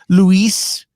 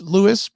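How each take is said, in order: First: The name is pronounced Luis. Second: The name is pronounced Lewis. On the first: The speaker calls it wrong. "It's not Luis" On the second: The speaker calls it right. "It's Lewis"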